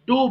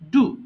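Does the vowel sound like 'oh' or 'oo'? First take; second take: oh; oo. First: The vowel sounds like 'oh'. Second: The vowel sounds like 'oo'. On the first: The speaker calls it wrong. "which is completely wrong pronunciation" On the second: The speaker calls it right. "It should be ডু"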